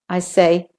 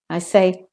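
The two takes are said the same way.

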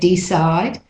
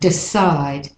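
First: The first vowel is a full E. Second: The first vowel is a reduced schwa. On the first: "Some people say decide" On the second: "the E can be more like a schwa"

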